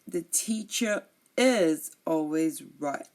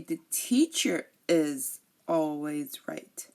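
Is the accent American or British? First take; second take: British; American. First: It is said in a British accent. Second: It is said in an American accent. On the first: "But in British English" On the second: "In American English, they say"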